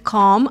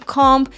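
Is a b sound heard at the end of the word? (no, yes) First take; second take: no; yes. First: The word ends in m with no b sound. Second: The word ends with an audible b sound. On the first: The speaker calls it right. "это будет comb" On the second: The speaker calls it wrong. "а не comb"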